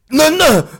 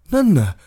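First: It is said with a demanding, commanding tune. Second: It is said with a plain statement tune. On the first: Open the balcony door. "öppna balkongdörren" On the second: That is a balcony. "det är en balkong"

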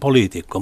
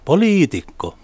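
First: The stress is on the first syllable. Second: The stress falls on a later syllable. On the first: The word is used neutrally. The speaker calls it right. "suomen kielessähän on korko ensimmäisellä tavulla" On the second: The word expresses contempt. The speaker calls it wrong. "se on toisella tavalla, niin se on tarkoitettu halveksumiseksi"

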